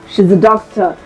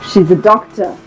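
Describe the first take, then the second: No difference in how they are said.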